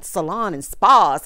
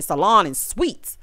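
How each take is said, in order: First: Salon and spas stretched out slowly like an ad; mock ad drawl. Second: Salon and suites drawn out slowly with a rising end; mock ad drawl. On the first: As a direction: spell out Salon and spas like a cheesy promo. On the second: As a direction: tease Salon and suites like a cheesy promo. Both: Shown as a demonstration. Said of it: "mocking brand names".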